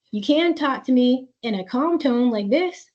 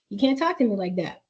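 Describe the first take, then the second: First: "can" lifted and held with a rising tune; stress on can. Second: Said in the usual way. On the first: Shown as a demonstration. Mom showing her teen the calm way to talk, stressing "can". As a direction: lean on the word "can" and keep it encouraging.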